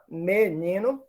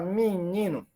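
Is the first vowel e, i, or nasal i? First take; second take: e; nasal i. First: The first vowel is an e sound. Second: The first vowel is a nasal i sound. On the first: "que ocorra um E" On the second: "um I nasal"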